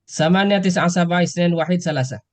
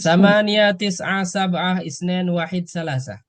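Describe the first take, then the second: First: The numbers are said at a faster pace. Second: The numbers are said at a slower pace.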